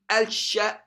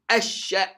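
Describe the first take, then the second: First: The L is pronounced before the sh sound. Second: The L is dropped and the sh doubled. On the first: The speaker calls it wrong. "when you add the lam alsha, you find difficulty in pronouncing it" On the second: The speaker calls it right. "you find it easier in asha"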